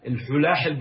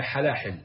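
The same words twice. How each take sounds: First: "الحلاحل" with u after the first ha, al-hulahil; singular "الحلاحل" with a short u; damma on the ha. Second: "حلاحل" with a after the first ha, halahil; fatha on the ha. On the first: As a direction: say "الحلاحل" as al-HU-laa-hil. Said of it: "بالضم". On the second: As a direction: say "حلاحل" as HA-laa-hil. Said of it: "افتح الحاء بصير جمع". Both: Shown as a demonstration.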